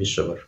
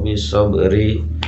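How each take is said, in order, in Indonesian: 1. Kata terakhir berakhir dengan konsonan. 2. Kata terakhir berakhir dengan vokal tambahan.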